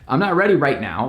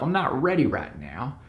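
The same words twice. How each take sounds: First: It is spoken in the speaker's usual accent. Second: It is spoken in a Southern American accent.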